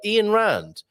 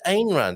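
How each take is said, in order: First: The first name sounds like Ian. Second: The first name does not sound like Ian. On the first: The speaker calls it right. "pronounced Ian" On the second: The speaker calls it wrong. "I thought it was Ayn Rand"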